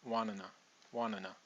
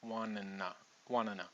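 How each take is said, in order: No difference in how they are said.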